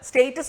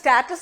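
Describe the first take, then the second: First: It is said with a British pronunciation. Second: It is said with an American pronunciation. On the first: "സ്റ്റേറ്റസ് British ഇംഗ്ലീഷുമാണ്" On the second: "American ഇംഗ്ലീഷും"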